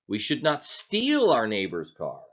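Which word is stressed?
steal. The stress falls on the word "steal". Borrowing it would be fine. "Are we saying then that it's okay to borrow it?"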